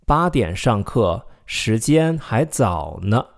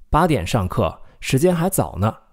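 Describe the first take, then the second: First: Slow, careful read of 八点上课，时间还早呢; slow model sentence. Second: Said in the usual way. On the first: Shown as a demonstration. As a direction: say it slowly, rising at the end. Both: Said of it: "let's take a look at more examples".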